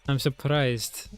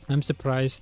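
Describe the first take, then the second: First: It is spoken in a fake Russian accent. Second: It is spoken in his normal accent. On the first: "I don't know why I, like, put it in the accent" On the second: "I meant to drop it there"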